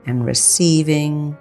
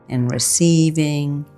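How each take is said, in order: Both takes have the same delivery.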